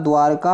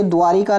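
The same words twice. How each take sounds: First: "द्वारका" with no i after r; correct "द्वारका". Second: "द्वारिका" with an i after r; wrong "द्वारिका". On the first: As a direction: run r straight into ka in द्वारका. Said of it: "होता है". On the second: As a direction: say द्वारिका in three beats, dwaa-ri-ka. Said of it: "नहीं होता". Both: Shown as a demonstration.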